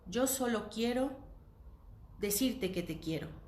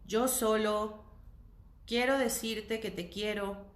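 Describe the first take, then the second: First: It is said in a warm, poetic way. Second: It is said in a cold, detached way. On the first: "lo estoy pensando en una enunciación poética" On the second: "más frío que eso"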